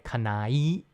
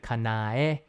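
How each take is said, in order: First: The ending blends into a single 'eye' sound. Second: The ending keeps separate 'ah' and 'eh' vowels. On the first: The speaker calls it wrong. "if you say it fast, it comes out sounding like an I sound" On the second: The speaker calls it right. "but it's actually Kanae"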